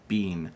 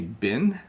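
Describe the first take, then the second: First: The vowel is long, like in bean. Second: The vowel is short, like in bin. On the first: "When I say bean, people laugh at me" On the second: "I sometimes say been"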